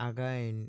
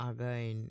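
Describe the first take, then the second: No difference in how they are said.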